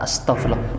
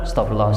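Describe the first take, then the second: First: It is said slowly and thoughtfully. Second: It is said quickly and mechanically.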